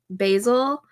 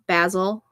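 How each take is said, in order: First: It is said with an American pronunciation. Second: It is said with a British pronunciation. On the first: This is how the name is said at home. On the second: This is how the name is said overseas.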